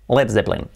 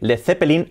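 First: It is said with a native English accent. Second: It is said with a Spanish accent.

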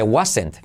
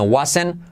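First: The final t is clearly pronounced. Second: The final t is dropped. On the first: The speaker calls it wrong. "no se dice wasn't" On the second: The speaker calls it right. "La T no se pronuncia"

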